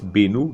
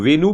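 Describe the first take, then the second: First: The name starts with a B sound. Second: The name starts with a V sound. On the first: "V becomes B" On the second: "V becomes B"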